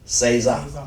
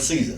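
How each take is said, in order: First: The word has a Spanish pronunciation. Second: The word has an English pronunciation. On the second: "We call it Caesar"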